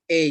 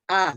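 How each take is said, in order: First: "A" said as "ay"; English letter-name A. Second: "A" said as an open "ah"; Indonesian A sound. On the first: English teacher showing learners the correct reading, "A" as English "ay". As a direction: say "A" the English way, rhyming with "day". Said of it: "Itu namanya pronunciation-nya seperti itu". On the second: English teacher showing how not to read the letter, "A" as "ah". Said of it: "dibacanya bukan A". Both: Shown as a demonstration.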